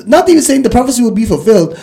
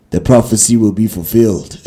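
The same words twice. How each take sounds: First: Said in the usual way. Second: Dramatic monster prophecy. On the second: Retold or imitated. Retelling a monster scene to listeners, low ominous proclaiming. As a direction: intone it like a monster's ominous decree. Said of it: "saying something dramatic like".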